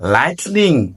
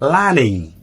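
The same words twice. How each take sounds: First: The t is clearly pronounced. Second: The t is dropped. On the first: The speaker calls it wrong. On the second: The speaker calls it right.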